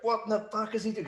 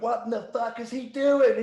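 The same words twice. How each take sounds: First: High, strained imitation of an exasperated boss; high-pitched mock disbelief. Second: Much higher, louder and slower mock fury; high, loud imitation of an angry boss; furious boss. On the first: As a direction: mimic the boss losing patience. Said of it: "They were just like". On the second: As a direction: do the boss blowing up, dragging it out. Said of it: "Jeff just turned around and went".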